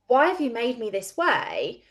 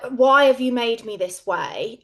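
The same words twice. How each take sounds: First: The question sounds curious and open. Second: The question sounds accusing and resentful. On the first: The speaker genuinely wonders about the purpose. The speaker calls it right. "from a completely different energy" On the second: The speaker blames someone for how they are. The speaker calls it wrong. "It feels even like accusatory"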